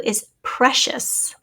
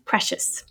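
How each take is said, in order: First: Is precious said very slowly, rising; precious drawn out for a spelling test; slow dictation. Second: Precious whispered with no voice; Precious repeated softly in a whisper; whispered word. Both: Shown as a demonstration. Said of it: "the word is number twenty-two".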